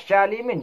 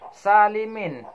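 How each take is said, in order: First: It begins with an sh sound. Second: It begins with a plain, light s sound. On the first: The speaker calls it wrong. "dibaca syalimin juga salah" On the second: The speaker calls it right. "Kalau sin"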